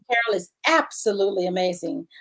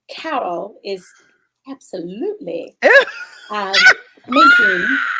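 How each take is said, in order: First: It is read in the speaker's own voice. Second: It is said in an imitated, put-on voice.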